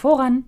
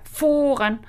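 First: The word is said softly and gently. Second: The word is said with more push and force.

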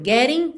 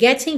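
First: The middle consonant is a quick R-like tap. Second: The middle consonant is a clear T sound.

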